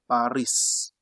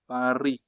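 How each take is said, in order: First: The final S is pronounced. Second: The final S is silent. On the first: The speaker calls it wrong. "They don't say Paris. That is not correct" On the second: The speaker calls it right. "drop this one in your mind. You just say Paris"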